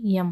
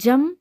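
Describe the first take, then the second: First: The word begins with a Y sound. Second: The word begins with a J sound. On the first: The speaker calls it right. "जम का शुद्ध रूप क्या हो जाएगा, यम हो जाएगा" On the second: The speaker calls it wrong. "जम नहीं होता"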